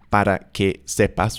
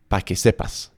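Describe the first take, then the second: First: Each word is said fully and separately. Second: The first word is shortened to one syllable. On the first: "with each word separated like that" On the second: "that para becomes pa"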